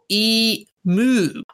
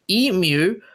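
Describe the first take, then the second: First: The second syllable is said as 'moo'. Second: The second syllable is said as 'myoo'. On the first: The speaker calls it wrong. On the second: The speaker calls it right.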